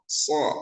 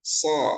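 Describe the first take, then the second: The two takes are said the same way.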